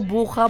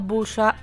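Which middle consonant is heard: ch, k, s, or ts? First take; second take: ch; s. First: The middle consonant is a rough ch sound. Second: The middle consonant is a hissing s sound.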